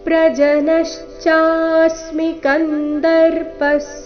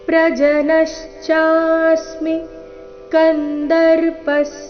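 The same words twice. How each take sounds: No difference in how they are said.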